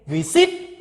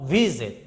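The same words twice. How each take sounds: First: Exaggerated late stress on visit; wrong syllable stressed. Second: Visit stressed on the first syllable. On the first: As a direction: shift the stress to the end of visit. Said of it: "Do you say visit or visit". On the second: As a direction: let the second syllable of visit fall away. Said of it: "no stress". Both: Shown as a demonstration.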